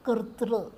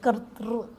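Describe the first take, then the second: First: The word ends with a short vocalic r sound. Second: The word ends with a short vocalic r sound.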